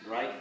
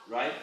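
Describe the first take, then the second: Both takes have the same delivery.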